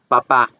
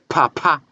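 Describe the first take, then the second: First: The P is said without a puff of air. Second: The P is said with a strong puff of air. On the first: "En español" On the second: "En inglés"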